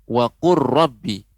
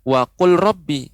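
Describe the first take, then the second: First: The L is merged into a doubled R. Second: The L is pronounced separately before the R. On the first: The speaker calls it right. "Maka dilebur lamnya" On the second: The speaker calls it wrong. "Bukan wa qul rabbi"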